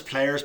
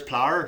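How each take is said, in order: First: Said in the usual way. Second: "plower" squeezed into one syllable, Northern Irish; condensed "plower". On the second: Shown as a demonstration. Showing how they condense words, Northern Irish "plower" in one syllable. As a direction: squash players down to "plower". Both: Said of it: "They condense words".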